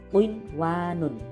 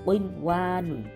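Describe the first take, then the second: Both takes have the same delivery.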